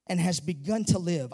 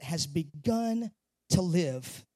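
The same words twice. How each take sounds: First: Said in the usual way. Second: "has begun to live" slow and soft, lingering on each word; savoring the verse. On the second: Shown as a demonstration. Pastor savoring a verse for his church, slow and soft. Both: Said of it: "I love that".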